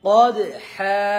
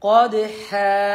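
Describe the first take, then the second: No difference in how they are said.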